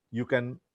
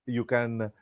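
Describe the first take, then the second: No difference in how they are said.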